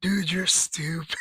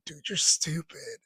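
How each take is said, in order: First: Whispered through laughter; breathless whisper while cracking up; busting up. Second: Slow, amused jab at a friend; slow teasing put-down through laughter; laughing at a friend's dumb move; amused quote. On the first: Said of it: "busting up 'cause I'm like". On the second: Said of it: "I'm rolling". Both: Retold or imitated.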